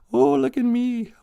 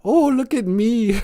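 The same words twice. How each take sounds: First: Very high mock show-off voice; high silly look at me squeal. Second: Very high, slow, giggling look at me; high silly squeal with giggles; laughing show-off squeal. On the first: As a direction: preen like you want everyone watching. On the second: Pretend. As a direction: laugh through the preening. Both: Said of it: "I say that a lot".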